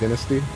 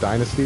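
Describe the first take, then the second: First: It is said the British way. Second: It is said the usual American way. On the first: "it's dynasty" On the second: "Instead of dynasty"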